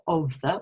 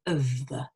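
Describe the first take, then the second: First: "of the" with a full o in "of"; strong-form "of" before "the"; full-vowel of. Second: "of the" with "of" reduced to "uhv"; weak-form "of" flowing into "the". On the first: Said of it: "we don't say of the". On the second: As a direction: say "of" with a schwa. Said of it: "we say of the nowadays". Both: Shown as a demonstration.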